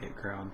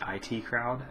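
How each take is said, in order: First: IT is spoken as the single word 'it'. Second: IT is spoken as two separate letters. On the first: The speaker calls it wrong. "not It Crowd" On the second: The speaker calls it right. "as as you really should be said"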